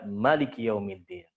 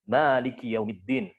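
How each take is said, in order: First: The first vowel of maliki is kept short. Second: The first vowel of maliki is drawn out long. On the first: This follows the Qalun reading, which drops the alif. "dia membuang alifnya ... Jadi dibaca maliki yaumiddin" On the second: This follows the Hafs reading, which keeps the alif. "Malik di situ ada huruf mad, ada isbatul alif"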